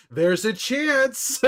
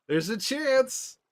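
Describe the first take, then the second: First: High, slow teasing delivery; mock sly actor. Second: High, drawn-out tease; mock sly actor, repeated. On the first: Streamer imitating Pedro on the red carpet, slow and teasing. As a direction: draw it out slyly. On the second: Streamer repeating Pedro's teasing line, slow and high. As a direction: stretch out There's a chance knowingly. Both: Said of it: "he's got this look on his face where he's like".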